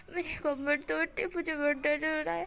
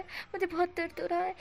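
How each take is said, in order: First: Higher, whining about back pain; a hint of a sulky whine; whiny complaint. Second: Higher again, pushing the whine further; milk the pain a little more; hammed-up repeated complaint; whinier repeat. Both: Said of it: "wing इस तरह से बोल रहा था".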